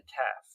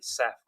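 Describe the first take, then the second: First: It begins with a hard k sound, UK-style. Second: It begins with a soft s sound, US-style.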